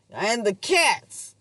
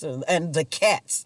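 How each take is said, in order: First: «And the cats» said slowly and higher, drawn out; imitating the landlady. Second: Said in the usual way. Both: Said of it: "I think that's how she said it".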